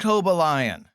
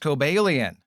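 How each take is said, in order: First: The ending sounds like the word lion. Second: The ending does not sound like lion. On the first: The speaker calls it wrong. "that's actually not how you say it" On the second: The speaker calls it right. "It's actually pronounced Cobalion, even though it has the word lion in the name"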